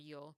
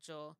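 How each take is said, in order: First: The word is said in a non-Argentinian Spanish accent. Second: The word is said in an Argentinian Spanish accent. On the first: "instead of" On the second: "pronounce it with Argentinian Spanish"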